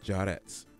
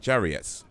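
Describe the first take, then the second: First: The name is said without any i sound. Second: The name is said with an extra i sound. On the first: The speaker calls it right. "it's pronounced Jarrett. The I is silent" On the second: The speaker calls it wrong. "I'm saying Jarriet"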